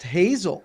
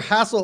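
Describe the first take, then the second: First: The middle consonant is a buzzing Z sound. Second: The middle consonant is a hissing S sound. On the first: The speaker calls it right. "It's pronounced Hazel" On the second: The speaker calls it wrong. "I'm not ever getting a, a hard Z sound out of out of that S"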